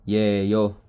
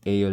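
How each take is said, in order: First: The word begins with a 'y' sound. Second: The word begins directly with a vowel. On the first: It is read letter by letter. The speaker calls it wrong. "Kung babasahin mo ng or literally" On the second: It is read the way Koreans say it. The speaker calls it right. "Pero yung basa sa kanya ng mga Korean, eyo lang"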